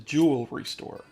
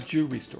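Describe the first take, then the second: First: Every sound in jewelry is said. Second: Some sounds in jewelry are left out. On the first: The speaker calls it right. "There's other letters in there" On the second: The speaker calls it wrong.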